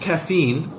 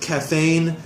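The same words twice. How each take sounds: First: The second syllable has an 'e' vowel. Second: The second syllable has an 'a' vowel. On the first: The speaker calls it right. "with a with an e sound instead of an a sound" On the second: The speaker calls it wrong. "you said caffeine"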